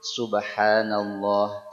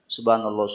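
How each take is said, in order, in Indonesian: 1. Diucapkan dengan hati-hati dan h di akhir terdengar jelas. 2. Diucapkan dengan cepat tanpa bunyi h di akhir. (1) "Kerasa dulu haknya, baru benar" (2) "Kalau kita baca cepat-cepat ... Ada nggak haknya? Nggak ada"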